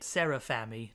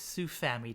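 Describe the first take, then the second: First: The name begins with an extra 'Sera' syllable. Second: The name begins with a short 'Su' syllable. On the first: The speaker calls it wrong. "I was saying it wrong the entire time" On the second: The speaker calls it right. "No, it's Sufami Turbo"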